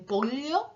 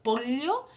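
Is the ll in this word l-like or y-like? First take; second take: l-like; l-like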